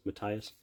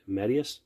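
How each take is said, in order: First: Matthias said as muh-TIE-us, softer; alternative pronunciation. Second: Matthias said as MAD-ee-us, rising; alternative pronunciation. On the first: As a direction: say Matthias with "tie" as the stressed middle syllable. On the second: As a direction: say Matthias with a short first A and "ee" in the middle. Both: Shown as a demonstration. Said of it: "Apologize if I said it wrong".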